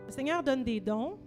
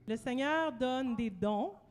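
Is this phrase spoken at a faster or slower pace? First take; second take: faster; slower. First: It is spoken at a normal, quicker pace. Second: It is spoken at a noticeably slower pace.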